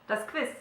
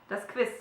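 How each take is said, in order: Both takes have the same delivery.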